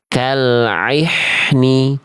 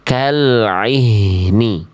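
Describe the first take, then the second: First: The h is a harsh, pharyngeal sound. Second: The h is a soft, breathy deep-throat sound. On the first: The speaker calls it wrong. "Ini banyak di antara kita melafalkan begini" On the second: The speaker calls it right. "Harusnya bunyinya bukan yang tadi, tapi"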